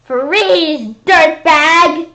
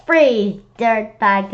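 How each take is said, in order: First: Loud, higher TV cop bark; cop holler. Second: Mild cop yell. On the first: Acted. Police ordering the monster to freeze, loud holler. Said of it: "they hollered". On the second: Retold or imitated. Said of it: "Cops on T V always yell".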